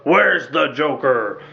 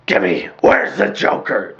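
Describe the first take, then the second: First: Slow, low gravelly growl; gravelly Batman voice. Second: Gravelly Batman voice. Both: Retold or imitated. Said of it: "I like that gravelly voice".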